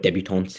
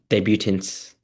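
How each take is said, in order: First: The word is said with French pronunciation. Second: The word is said with English pronunciation.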